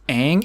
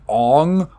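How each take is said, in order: First: The vowel sounds like the one in 'hang'. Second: The vowel sounds like the one in 'on'. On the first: This is how the show says the name. The speaker calls it right. "even though it's Aang" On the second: This is how the film says the name. The speaker calls it wrong. "They call him Ong all the time"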